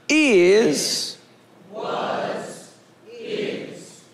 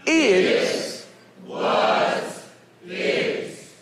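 First: It is said a little louder. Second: It is said very loudly.

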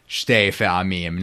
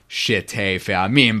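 First: The first word is said as one syllable. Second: The first word is said as two syllables. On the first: The speaker calls it right. "it really needs to be shte with one syllable" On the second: The speaker calls it wrong. "not shite fe'amim"

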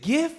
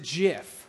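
First: The word begins with a hard g sound. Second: The word begins with a j sound. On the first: "Is it GIF" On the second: "or is it JIF? Not the peanut butter"

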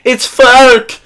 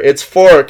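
First: The name has an umlauted ö vowel, yelled. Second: The name has a plain o vowel. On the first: The speaker calls it right. "I have to yell, it's Fork! Because that's actually how you pronounce it" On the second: The speaker calls it wrong. "everyone says Fork"

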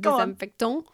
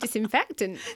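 First: It is said with a French accent. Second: It is said with a plain English accent.

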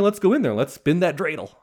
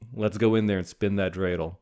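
First: It is said with lively energy. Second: It is said flatly, without energy.

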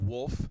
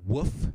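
First: The word is said with an L sound. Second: The word is said without an L sound. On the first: The speaker calls it right. "instead of "wolf,"" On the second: The speaker calls it wrong. "If you say the word "woof" instead of "wolf," don't ever talk to me"

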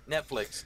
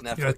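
First: The T sound is clearly pronounced. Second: The T sound is dropped.

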